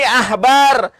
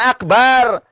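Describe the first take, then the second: First: The middle consonant is a breathy h. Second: The middle consonant is a hard k. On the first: The speaker calls it right. "Ini ahbar" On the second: The speaker calls it wrong. "bukan akbar"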